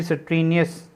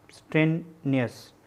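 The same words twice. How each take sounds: First: Said in the usual way. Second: "स्ट्रेनियस" slow and softer, pause before नियस; syllable by syllable. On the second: Shown as a demonstration. Teacher writing out the word, "स्ट्रेनियस" quietly broken in two. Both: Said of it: "यहाँ पे अस का sound आ रहा हो".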